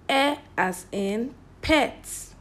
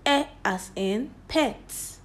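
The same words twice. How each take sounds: The two takes are said the same way.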